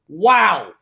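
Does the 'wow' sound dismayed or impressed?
impressed. It sounds amazed and admiring. The team's success is remarkable. "I'm going to start with one word"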